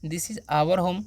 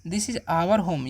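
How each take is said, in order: First: Said in the usual way. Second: "This is our home" said very slowly, word by word; slow teacher dictation. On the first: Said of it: "यह हमारा घर है". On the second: Shown as a demonstration. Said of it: "तो क्या बोलेगा?".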